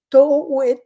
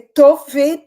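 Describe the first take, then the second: First: The middle sound is a u-like vowel. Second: The middle sound is a v consonant. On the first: The speaker calls it wrong. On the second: The speaker calls it right.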